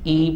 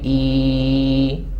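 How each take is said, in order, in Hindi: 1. स्वर की लंबाई सामान्य, मध्यम है। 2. स्वर लंबा खिंचा हुआ है। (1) "नॉर्मल हम पढ़ेंगे" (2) "एक अलिफ जितनी लंबी भी नहीं"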